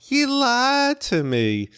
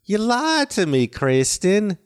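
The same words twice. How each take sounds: First: High, slow Southern twang, warming up; slow Southern accent. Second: High-pitched Alabama twang, imitating Heath; Southern accent. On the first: Shown as a demonstration. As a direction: stretch out You lied to me in a high Southern accent. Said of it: "warming up going". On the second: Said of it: "one time he goes".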